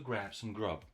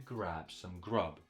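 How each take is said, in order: First: The phrase is read at a faster pace. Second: The phrase is read at a slow pace. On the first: "Let's try a bit faster" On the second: "Let's read it slowly"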